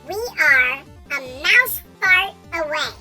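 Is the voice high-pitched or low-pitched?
high-pitched. It is said in a higher-pitched voice.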